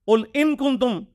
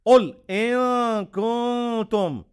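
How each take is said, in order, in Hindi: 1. k से पहले का n साफ़ बोला जाता है। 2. k से पहले का n छिपा हुआ और नासिकीकृत होता है। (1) "इसको वो गलत कह देंगे" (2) "वो इखवा भी होगा"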